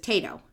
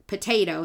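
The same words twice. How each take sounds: First: "tato", potato without the pa; weak syllable dropped. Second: Said in the usual way. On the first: Shown as a demonstration. Showing how kids simplify potato, just "tato". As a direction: start straight on the t: "tato". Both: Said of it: "they get rid of pa".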